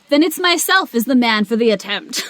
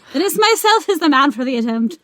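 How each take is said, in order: First: It is said in the speaker's plain accent. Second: It is said in an Irish accent.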